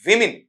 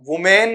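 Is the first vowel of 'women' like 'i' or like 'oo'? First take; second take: i; oo. First: The first vowel sounds like 'i'. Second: The first vowel sounds like 'oo'. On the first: The speaker calls it right. "नहीं विमेन" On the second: The speaker calls it wrong. "वुमेन नहीं"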